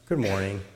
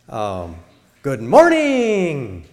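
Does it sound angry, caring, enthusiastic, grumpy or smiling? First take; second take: caring; enthusiastic. First: It is said gently and caringly. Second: It is said with lively enthusiasm. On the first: The listener may be hurting. "Gently, caringly" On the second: It is great to be alive. "That's enthusiastic"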